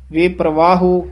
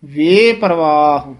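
First: "ਵੇ ਪ੍ਰਵਾਹੋ" brisker, ending on a full o; wrong o ending. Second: Slow "ਵੇ ਪਰਵਾਹ" with a long hanging "ਵੇ"; drawn-out ਵੇ. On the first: Teacher showing the error, full o ending on "ਪ੍ਰਵਾਹੋ". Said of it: "ਹੂੜਾ ਨਹੀਂ". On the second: Teacher modelling "ਵੇ ਪਰਵਾਹ", lingering on "ਵੇ". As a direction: stretch "ਵੇ", keep "ਪਰਵਾਹ" whole. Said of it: "ਵਾਵੇ ਤੋਂ dash ਦੇ ਕੇ ਲਮਕਾ ਕੇ". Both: Shown as a demonstration.

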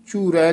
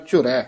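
First: "ਝੁਰੈ" with the u stretched long; the mistaken long-u "ਝੁਰੈ"; wrong long vowel. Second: "ਝੁਰੈ" with a short u; "ਝੁਰੈ" with aunkar, not a long oo; short aunkar vowel. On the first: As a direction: say "ਝੁਰੈ" as if spelt ਝੂਰੈ, long oo. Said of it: "ਝੁਰੈ ਨਹੀਂ ਕਹਿਣਾ". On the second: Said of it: "ਔਂਕੜ ਨਾਲ ਉਚਾਰਨ ਕਰਨਾ ਹੈ". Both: Shown as a demonstration.

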